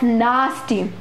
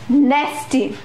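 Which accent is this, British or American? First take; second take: British; American. First: The first vowel is long and open, as in 'father'. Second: The first vowel is short and front, as in 'cat'. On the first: "in British English it is said as nasty" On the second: "but in American English it is said as nasty"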